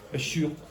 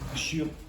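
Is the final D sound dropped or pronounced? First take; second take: dropped; dropped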